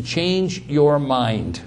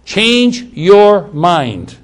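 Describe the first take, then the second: First: Said in the usual way. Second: "Change your mind" very slow, higher and louder; emphatic restatement. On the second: Real, not acted. Preacher drives home what repent means, "Change your mind" slow and emphatic. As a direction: weigh out each word of "Change your mind", loud and drawn out.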